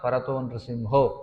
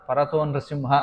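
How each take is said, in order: First: The last word ends in an 'o' sound. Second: The last word ends in an 'a' sound. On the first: The meaning is kept as written. The speaker calls it right. "స్పష్టంగా నృసింహో అని ఉన్నప్పుడు" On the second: The meaning changes. The speaker calls it wrong. "ఇతో నృసింహ పరతో నృసింహ అని చదువుతారు"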